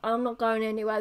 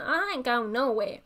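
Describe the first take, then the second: First: It is said in a plain, firm tone. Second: It is said in a sassy American-accented tone.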